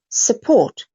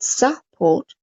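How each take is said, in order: First: The first vowel is a short uh sound. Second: The first vowel is a full vowel. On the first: The speaker calls it right. "but su, support" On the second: The speaker calls it wrong. "not support"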